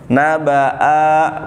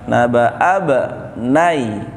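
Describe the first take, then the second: First: A long vowel is held before the next word. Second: The vowel is skipped, running straight into b. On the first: The speaker calls it wrong. "bukan begitu bacanya" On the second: The speaker calls it right. "Naba'ab langsung"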